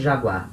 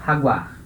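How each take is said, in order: First: "jaguar" starting soft like "zha", Brazilian style; "jaguar" as Brazilians say it, zha-GUAR; Portuguese jaguar. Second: "jaguar" pronounced ha-GWAR; Spanish jaguar. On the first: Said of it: "é chamada de jaguar". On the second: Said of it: "Em espanhol". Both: Shown as a demonstration.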